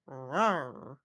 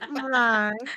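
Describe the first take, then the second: First: It is said in a garden gnome voice. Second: It is said in a normal voice.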